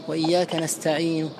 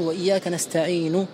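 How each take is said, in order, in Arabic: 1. تنتهي الكلمة الأخيرة ببعض الضمة، ضمة خفيفة جزئية. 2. تنتهي الكلمة الأخيرة بضمة كاملة. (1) "بل تقف ببعض الضمة" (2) "ما تقول وإياك نستعين هكذا بضمة"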